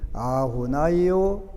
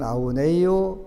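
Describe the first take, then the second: First: The middle syllable sounds like 'nai'. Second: The middle syllable sounds like 'nei'. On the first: This is the Sri Lankan way of reciting it. "나이요 하는 거는 스리랑카 쪽하고" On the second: This is the Myanmar or Thai way of reciting it. "네이요라고 한 거는 미얀마 쪽이 태국 쪽이고"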